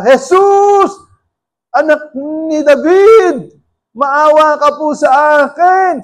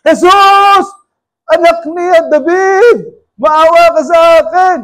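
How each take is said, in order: First: High, slow desperate cry for help; shouting for mercy. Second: Higher, louder desperate cry, slow; even louder shout. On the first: Blind Bartimaeus shouting to Jesus, slow desperate cry. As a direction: blind beggar yelling to be heard over the crowd. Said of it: "Tumisigaw siya". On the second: Hushed by disciples, Bartimaeus shouts louder to Jesus. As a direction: yell harder as they try to hush you. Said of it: "lalo naman siya lumalakas ng sigaw". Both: Retold or imitated.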